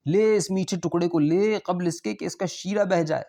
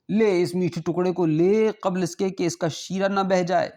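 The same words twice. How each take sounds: First: Raised, insistent host voice repeating the offer; host insisting once more the guest take the sweet; coaxing host. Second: Raised, urging host voice pressing a sweet on his guest; a rich host urging the morsel before its syrup drips; coaxing host. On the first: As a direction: urge it again, pitched up, pressing. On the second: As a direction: lift the pitch and coax him to take it. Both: Acted.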